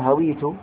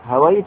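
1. الصوت الذي بعد الواو هو 'i'. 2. الصوت الذي بعد الواو هو 'a'. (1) "بكسر الواو" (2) "بفتح الواو"

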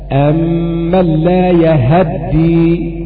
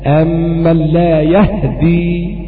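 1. الهاء مع فتحة. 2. الهاء بلا حركة، والدال مفردة. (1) "بفتح الهاء" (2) "بإسكان الهاء وتخفيف الدال"

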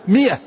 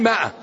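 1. الحركة الأولى صوت كسرة قصيرة. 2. الحركة الأولى صوت ألف طويل. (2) "العامة يقولونها مائة، ما هي مائة"

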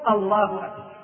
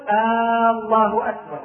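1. الحركة الأولى في الله تبقى قصيرة. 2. الحركة الأولى في الله تُمَدّ وتُطال. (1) "والصواب أن يقول" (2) "الخطأ أن يقول"

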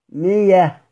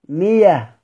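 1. الحرف الأوسط ياء. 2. الحرف الأوسط ياء.

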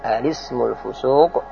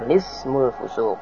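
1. Dimulai dengan suku kata 'al' yang utuh. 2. Dimulai langsung dengan bunyi 'l'. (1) "boleh dibaca al-ismu" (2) "boleh juga dibaca lismu"

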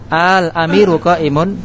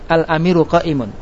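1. Vokal pertama dibaca panjang. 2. Vokal pertama dibaca pendek. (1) "ada mat ya" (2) "Al amiru pendek ya"

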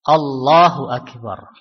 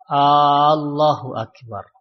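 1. Tidak ada vokal yang dipanjangkan secara tidak biasa. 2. Vokal di awal dipanjangkan.

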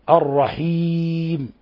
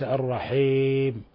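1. الحركة بعد الحاء كسرة واضحة. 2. الحركة بعد الحاء تميل إلى الفتحة. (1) "كلفظ الرحيم أن يخلص الكسر" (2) "وليس الرحيم"

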